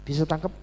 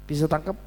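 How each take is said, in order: The two takes are said the same way.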